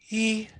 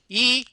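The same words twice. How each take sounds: First: The vowel is voiced with lots of audible air. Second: The vowel is voiced with a tight, squeezed sound. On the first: "Here's the breathy" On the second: "this is pressed phonation"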